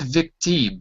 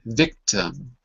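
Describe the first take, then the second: First: The second syllable has a full 'im' vowel. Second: The second syllable has a reduced 'uh' vowel. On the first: The speaker calls it wrong. "it's not victim, but it's an uh" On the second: The speaker calls it right. "it's an uh, because it's an unstressed syllable"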